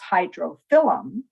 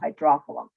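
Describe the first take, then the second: First: The stress falls on the syllable 'phyl'. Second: The stress falls on the syllable 'dro'. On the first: It highlights the meaning water leaf. "which emphasizes water leaf" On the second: It sounds sophisticated. "the third from the last, is the accent"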